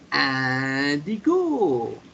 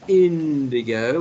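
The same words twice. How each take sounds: First: It is said with a French accent. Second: It is said with an English accent. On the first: The speaker calls it right. "we say indigo" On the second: The speaker calls it wrong. "instead of saying indigo"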